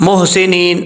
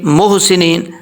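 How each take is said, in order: The two takes are said the same way.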